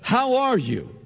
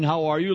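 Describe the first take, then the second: First: It sounds sincere and genuinely interested. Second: It sounds like a quick casual greeting.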